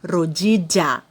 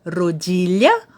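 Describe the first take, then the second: First: The double L sounds like a j sound. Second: The double L sounds like Portuguese lh. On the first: "como se fosse um J" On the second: "com o som de L H"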